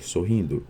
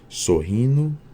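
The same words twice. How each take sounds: First: The d of the ending is clearly pronounced. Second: The d of the ending merges into n. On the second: "assimilação"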